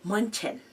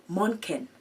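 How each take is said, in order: Both takes have the same delivery.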